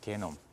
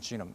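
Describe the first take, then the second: First: The word begins with a hard g and 'e'. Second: The word begins with a soft j and 'ee'. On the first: This is the Korean rendering of the term. "우리나라 말로 게놈이에요" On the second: This is the English pronunciation of the term. "영어로는 지놈"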